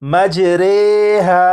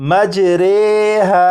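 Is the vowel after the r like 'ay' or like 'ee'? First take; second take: ay; ay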